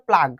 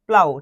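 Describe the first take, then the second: First: The word ends with a hard g sound. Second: The word ends with an ow sound. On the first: The speaker calls it wrong. "অনেকে ভুল করবে, উচ্চারণ করে প্লাগ" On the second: The speaker calls it right. "এখানে এটা উচ্চারণ হবে প্লাউ"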